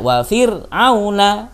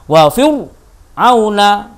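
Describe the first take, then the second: First: The r is light and thin, lips spread. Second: The r is heavy and thick, mouth rounded. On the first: The speaker calls it right. "Kalau dengan tipis kan enak" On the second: The speaker calls it wrong. "Gak boleh sampean bacanya"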